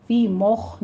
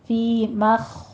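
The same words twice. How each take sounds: First: فی مخ said with a full rounded mouth; wrong heavy خ. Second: فی مخ slowly, خ full but not mouthed round; proper فی مخ; correct form. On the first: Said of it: "فی مخ نہیں کہنا،". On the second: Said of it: "مخ، خو کو پر کر دینا ہے،". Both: Shown as a demonstration.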